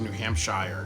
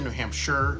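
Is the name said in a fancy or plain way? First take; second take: fancy; plain. First: It is pronounced in a fancier, more elaborate way. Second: It is pronounced in an ordinary, everyday way. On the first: "just to sound a little fancy" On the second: "Some people say New Hampshire"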